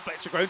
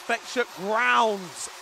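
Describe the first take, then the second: First: The surname sounds like 'groans'. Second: The surname sounds like 'grounds'. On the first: The speaker calls it wrong. "is not Fletcher Groans" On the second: The speaker calls it right. "it's Fletcher Grounds"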